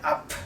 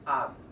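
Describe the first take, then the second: First: Up ending in an audible puff of air; released final p. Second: Up with the lips kept shut, no air; unreleased final p. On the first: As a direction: open the lips after the p in up. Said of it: "It's not like up". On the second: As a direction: swallow the p in up. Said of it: "it's just up". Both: Shown as a demonstration.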